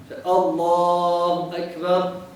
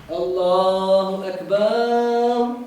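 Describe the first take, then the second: First: Slow, "Allahu" held for two counts; two-count elongation. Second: "Allahu Akbar" sung out, the vowels drawn out like a melody; wrong, sung elongation. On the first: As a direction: stretch the vowel in "Allahu" for two beats. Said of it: "this should be two count". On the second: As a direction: chant "Allahu Akbar" with a long sung stretch, the way it must not be done. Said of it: "the other thing you must not do is". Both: Shown as a demonstration.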